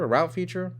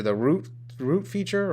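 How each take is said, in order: First: "route" said as "rowt", rhyming with out; route said as rout. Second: "route" said as "root", rhyming with boot. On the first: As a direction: question "route" as "rout", the American way. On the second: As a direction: question "route" as "root" like a Brit. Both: Shown as a demonstration. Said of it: "What new feature?".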